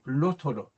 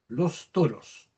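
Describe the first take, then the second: First: The final s sound is not pronounced. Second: The s sounds are fully and clearly pronounced. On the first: "omitiendo la última S" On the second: "Si lo pronunciamos de manera esmerada"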